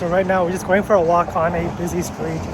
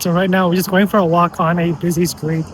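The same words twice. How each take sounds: First: Street noise and music are heard behind the voice. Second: The voice sounds clean with background noise removed.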